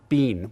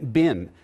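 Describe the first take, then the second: First: It is said the British and Canadian way. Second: It is said the American way.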